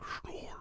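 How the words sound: The voice resonates forward in the mouth.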